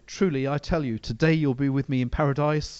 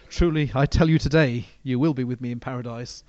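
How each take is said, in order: First: The pause comes just before the word today. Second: The pause comes just after the word today.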